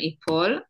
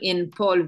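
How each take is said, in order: First: No n sound is heard before the p. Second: An n sound is heard before the p. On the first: The speaker calls it right. "אנחנו אומרים ייפול" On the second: The speaker calls it wrong. "אנחנו לא אומרים ינפול"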